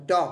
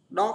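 First: "dog" with a clear G at the end; teacher showing the G at the end of "dog"; final G voiced. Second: Said in the usual way. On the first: Shown as a demonstration. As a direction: land on the G of "dog". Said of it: "có chữ G của dog". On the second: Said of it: "Dog không phải".

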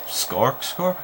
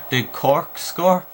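First: "Scork score" with an extra s sound on Cork; tongue slip. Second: "Did Cork score" said slowly, each word clear; careful correction. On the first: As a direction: stumble into "Scork", s stuck to the front. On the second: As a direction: spell out "Cork" cleanly and slowly. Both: Real, not acted. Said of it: "why can't I talk".

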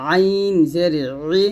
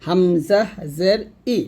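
First: আইন জের ই with ই squeezed in mid-throat; pressed ayin i. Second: হামজা জের ই with a clean unpressed ই; slow, simple ই with no squeeze in the throat; plain hamza i. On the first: Teacher telling learners to press, squeezed ayin. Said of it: "একটু চাপ দিবেন". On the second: Teacher contrasting with ayin, clean hamza. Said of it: "এটা হবে শুধু ই". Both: Shown as a demonstration.

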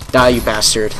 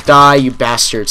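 First: Said in the usual way. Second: Slow, louder snarl at the enemy; slow gamer snarl; angry growl at enemy. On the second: Real, not acted. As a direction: drag it out as you shoot him. Shooting enemy in game.

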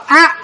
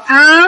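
First: A cut short; short Pali A; short vowel. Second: A held long; long Pali A; long vowel. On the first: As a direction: say A as a brief, stopped vowel. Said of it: "ba nguyên âm ngắn là có A". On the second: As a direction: stretch A into a sustained vowel. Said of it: "Năm nguyên âm dài là mình có A". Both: Shown as a demonstration.

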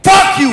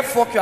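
First: Angry outburst, higher pitched; provoked American. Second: Said in the usual way. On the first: Acted. American traveller provoked by a passport request, angry outburst. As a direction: burst out in loud outrage. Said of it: "that thing provoke the American guy".

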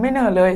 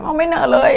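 First: Said in the usual way. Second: "อ้าว ไม่เหน่อเลย" said higher in mock surprise; teasing surprise. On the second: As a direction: tease the friend with a high, feigned "oh". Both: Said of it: "เราก็แซวเขาไงว่า".

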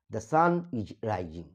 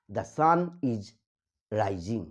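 First: "the sun is rising" said very slowly, word by word; dictation-slow "the sun is rising"; slow demo. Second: Said in the usual way. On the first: Shown as a demonstration.

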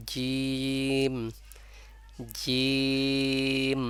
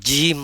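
First: জিম drawn out long, tongue on palate, teeth apart; right jeem, tongue pressed. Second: জিম said hard, teeth pressed together, louder; wrong jeem with clenched teeth. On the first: Teacher showing students the right way, জিম drawn out long. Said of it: "জিহ্বা চেপে বলতে হবে". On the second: Teacher showing students the wrong way, জিম through clenched teeth. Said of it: "এজন্য জিম দাঁত চেপে বলা যাবে না". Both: Shown as a demonstration.

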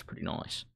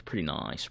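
First: Breathy whispered afterthought; whispered echo. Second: Said in the usual way. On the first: Real, not acted. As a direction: repeat it in a whisper. Whispered echo of own words.

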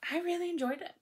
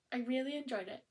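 First: High, loud burst of delight; a bright spike on "really"; really enjoyed it. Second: Said in the usual way. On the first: Real, not acted. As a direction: gush it with real enthusiasm.

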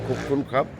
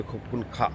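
First: "খুব খুন খাপ" ending in a closed p; men's Thai thank-you. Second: "খুব খুন খা" ending on an open aa; women's Thai thank-you. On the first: Vlogger teaching how men say thanks in Thailand, "খাপ" closed with p. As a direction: close the lips on the end of "খাপ". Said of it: "ছেলেরা বলে". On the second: Vlogger teaching how women say thanks in Thailand, "খা" left open. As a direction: leave the end of "খা" open, no p. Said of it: "মেয়েরা বলে". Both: Shown as a demonstration.

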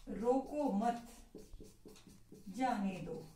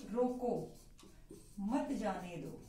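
First: रोको मत drawn out, long break, then जाने दो; slow रोको मत, pause, then a falling जाने दो; pause after मत. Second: रोको on its own, a clear break, then मत जाने दो; falling रोको, long pause, then मत जाने दो as a separate command; pause after रोको. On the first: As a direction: hold "रोको मत" together, stop, then drop on "जाने दो". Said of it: "रोको मत के बाद हमने विराम चिन्ह". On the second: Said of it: "विराम चिन्ह के प्रयोग से लिखें". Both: Shown as a demonstration.

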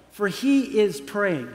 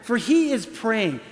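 First: "for he is praying" read slowly and drawn out. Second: "For he is praying" reread slowly, stressing "he"; emphatic reread. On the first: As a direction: let "praying" linger slowly. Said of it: "I want you to look at that". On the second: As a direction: lean on "he", then let it fall. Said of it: "look at that just for a minute". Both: Shown as a demonstration.

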